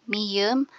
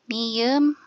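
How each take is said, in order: The two takes are said the same way.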